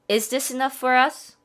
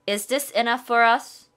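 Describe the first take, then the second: Both takes have the same delivery.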